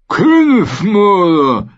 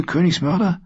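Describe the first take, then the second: First: Königsmörder sehr hoch, laut und langsam, feucht gedehnt; Königsmörder genüsslich sabbernd in die Länge ziehen; sabbernde Ziege. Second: Hoch und spitz, mit fragend steigendem Ende; Königsmörder? hoch und höhnisch in die Höhe gezogen. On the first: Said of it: "sabberte er". (Söldnerführer begrüßt den Gefangenen, hoch und sabbernd) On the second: Brienne verhöhnt Jaime. (Brienne verspottet Jaime, höhnisch hoch gefragt) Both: Acted.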